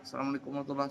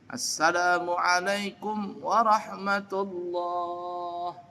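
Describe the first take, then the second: First: The last word bounces like a puppet show voice. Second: The last word is held steady and long.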